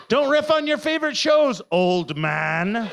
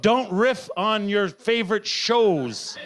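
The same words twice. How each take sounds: First: Higher, louder self-scolding with a laugh; scolding myself. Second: Slow, deliberate reading of the note; reading my own note. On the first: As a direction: tell yourself off, laughing. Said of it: "Oh, no". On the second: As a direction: read the note out slowly, word by word. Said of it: "I've even given myself a note". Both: Shown as a demonstration.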